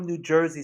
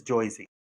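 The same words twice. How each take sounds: First: Said in the usual way. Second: "Jersey" said as "Choisey", with the "er" turned to "oy"; mock Joisey. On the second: Shown as a demonstration. Mocking the outsiders' idea of a Jersey accent, a jokey "Choisey". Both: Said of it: "Nobody from New Jersey says Jersey".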